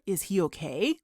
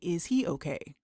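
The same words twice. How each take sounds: First: The voice rises at the end. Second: The voice does not rise at the end. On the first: The speaker calls it right. "It's more" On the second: The speaker calls it wrong. "We wouldn't say"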